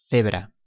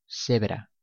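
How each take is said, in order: First: The c sounds like English th. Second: The c sounds like an s.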